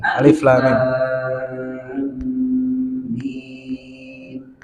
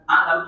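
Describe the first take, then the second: First: Each letter is said separately by name. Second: It is read as one joined word. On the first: The speaker calls it right. "tapi alif, lam, mim" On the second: The speaker calls it wrong. "bukan dibaca alam"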